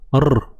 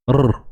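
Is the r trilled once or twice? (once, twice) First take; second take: once; once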